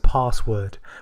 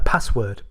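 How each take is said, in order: First: The A vowel is said long and soft. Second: The A vowel is said short and harsh. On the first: "in the A I pronounced it as password, which I would never say" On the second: "I basically said something like"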